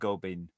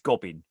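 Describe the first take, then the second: First: The name is said in a fancy, French-sounding way. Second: The name is said in a plain English way. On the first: The name is given a pretentious air. The speaker calls it wrong. "I'm insisting that his name is not Gobin" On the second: The name is taken down to earth. The speaker calls it right. "I'm going with the bouquet bucket pronunciation here"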